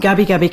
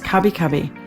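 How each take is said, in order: First: The name begins with a voiced G sound. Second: The name begins with a voiceless K sound.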